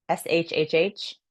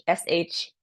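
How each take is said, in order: First: Long shhh. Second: Short shh. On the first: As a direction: hold the shhh out. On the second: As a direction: clip it to a quick shh. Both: Shown as a demonstration. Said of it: "the liver is sh".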